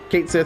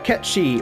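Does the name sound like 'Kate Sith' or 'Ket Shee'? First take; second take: Kate Sith; Ket Shee. First: The name sounds like 'Kate Sith'. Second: The name sounds like 'Ket Shee'. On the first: This is the widely used pronunciation. "popular pronunciation of this little guy's name" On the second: This is the correct original pronunciation. "I do believe is the proper"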